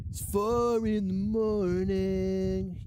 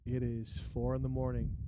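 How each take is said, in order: First: Slow drawn-out. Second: Said in the usual way. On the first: Shown as a demonstration.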